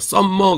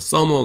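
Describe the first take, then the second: First: The m sound is held long and doubled. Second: The m sound is short and single. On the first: The speaker calls it wrong. "에이 영어 못하는구나 그러잖아요" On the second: The speaker calls it right. "서머 그래야지"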